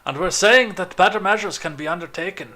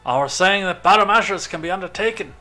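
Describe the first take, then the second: First: It is said in the speaker's ordinary accent. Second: It is said in a put-on Irish accent.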